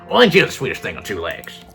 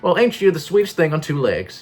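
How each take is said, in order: First: It is spoken in a different character voice. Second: It is spoken in a Southern belle voice. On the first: "But that's not Gretchen" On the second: "This this this has the Southern Belle voice on it"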